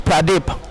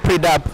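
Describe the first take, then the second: First: The name sounds like 'Pra-dip'. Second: The name sounds like 'Pri-dap'. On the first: The speaker calls it right. "So the right pronunciation is Pradip" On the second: The speaker calls it wrong. "not Pridap"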